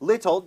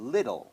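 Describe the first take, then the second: First: The middle consonant is a clear t sound. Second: The middle consonant is a soft d-like flap. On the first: "จริงๆแล้วก็ยังชัดอยู่นะครับ" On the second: "ถ้าจะพูดแบบลื่นไหลก็พูดว่า little เป็นดอเด็ก"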